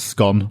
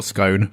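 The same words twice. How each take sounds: First: "scone" with a short o, rhyming with gone. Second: "scone" with a long o, rhyming with bone. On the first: Co-host sets out rival pronunciations of scone, short-o "scone". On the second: Co-host sets out rival pronunciations of scone, long-o "scone". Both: Shown as a demonstration. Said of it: "how you pronounce scone or scone".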